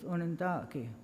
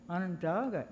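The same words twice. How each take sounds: First: The name has its original native pronunciation. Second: The name has an anglicized English pronunciation. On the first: This is how the people name themselves. The speaker calls it right. "The actual pronunciation is" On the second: This is the form outsiders imposed. The speaker calls it wrong. "isn't even Onondaga. It was kind of anglicized"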